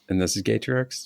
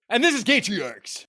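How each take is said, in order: First: It is said weakly, without force. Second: It is said strongly, with force.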